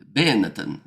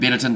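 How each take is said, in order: First: It is said with an attempted Italian accent. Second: It is said with a plain English accent. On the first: "That's probably still not not much better" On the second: "Benetton doesn't sound Italian"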